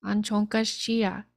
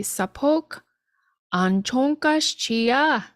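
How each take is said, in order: First: Said in the usual way. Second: Slow model phrase. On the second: Shown as a demonstration. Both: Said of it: "that would just be".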